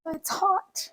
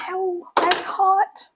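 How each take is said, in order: First: High, much softer pained aside; lingering ouch, pitched up and soft; still stinging. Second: Slow, high pained ow at the heat; startled ouch, drawn out slowly; real burn. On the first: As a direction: wince it out under your breath. Repeats after the burn. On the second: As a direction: yelp as the hot rice hits. Burns herself on the rice. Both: Real, not acted.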